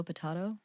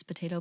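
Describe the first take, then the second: First: Potato with an AH, puh-TAH-toh; long AH in the middle of potato; British pronunciation. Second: Potato with an AY, puh-TAY-toh; American pronunciation. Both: Shown as a demonstration. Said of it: "it is the American British".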